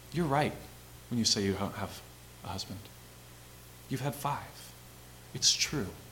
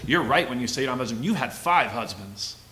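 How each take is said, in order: First: It is said in a calm, gentle tone. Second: It is said in a harsh, condemning tone.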